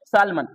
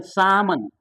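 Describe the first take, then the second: First: सालमन with the l said aloud; wrong sounded l. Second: सामन with no l; silent l. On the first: Teacher showing how people wrongly read सालमन. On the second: Teacher giving the correct silent-l सामन. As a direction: say सामन, dropping the l. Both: Shown as a demonstration. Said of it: "तो सामन बोलना है ना".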